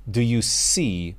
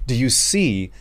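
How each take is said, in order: Both takes have the same delivery.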